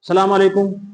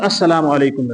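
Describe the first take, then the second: First: It is said hurriedly, without the opening syllable. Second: It is said fully, with the opening syllable. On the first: The speaker calls it wrong. "हम झटके में" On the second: The speaker calls it right. "दुरुस्त"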